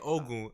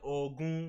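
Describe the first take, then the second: First: The name is said with an anglicized pronunciation. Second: The name is said with a Nigerian pronunciation. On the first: The speaker calls it wrong. "I didn't say" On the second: The speaker calls it right. "I said Ogun because that guy's Nigerian"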